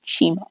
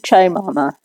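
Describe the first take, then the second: First: The name's vowel sounds like 'ee'. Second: The name's vowel sounds like 'eye'. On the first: The speaker calls it right. "sometimes the I can be an E" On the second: The speaker calls it wrong. "I hope I'm pronouncing that right"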